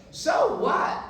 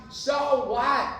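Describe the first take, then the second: First: "So what?" shouted high, loud on "So"; emphatic shout. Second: Emphatic so what. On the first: Preacher shouting his catchphrase to the crowd. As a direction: fling it out with a laugh in the voice. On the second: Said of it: "I say "so what" all the time". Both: Shown as a demonstration.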